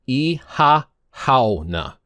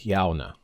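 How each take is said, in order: First: It is said slowly with every syllable sounded. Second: It is said quickly with syllables run together. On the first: "it's pronounced" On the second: "Hearing people say it, though, it sounds like"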